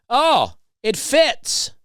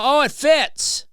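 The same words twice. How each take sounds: First: High, slow, loud sing-song Oh it fits; loud pointed remark. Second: Very high, loud, drawn-out Oh; loud pointed remark. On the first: To the rude lady nearby, a loud high sing-song. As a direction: drag it out loud so she overhears. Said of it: "I did loudly say". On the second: To the rude lady, a loud high drawn-out taunt. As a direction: stretch the Oh way up for her to hear. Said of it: "I said it loud enough to where she could hear". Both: Retold or imitated.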